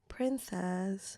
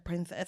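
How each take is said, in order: First: The word sounds warm and tender. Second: The word sounds irritated and mocking. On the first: The speaker cares deeply for the other person. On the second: The speaker is irritated with the other person.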